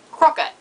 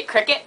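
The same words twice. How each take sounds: First: High, loud New Zealand "crocket"; New Zealand accent. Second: Said in the usual way. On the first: Shown as a demonstration. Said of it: "they say". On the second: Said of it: "they don't say cricket".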